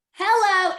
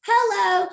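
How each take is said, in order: First: Loud high sassy hello; emphatic hello. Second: Loud high sassy hello again; emphatic hello. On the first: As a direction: land it like a big perk. Emphatic aside about the perk. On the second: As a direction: punch it as a brag. Repeated emphatic aside. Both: Real, not acted.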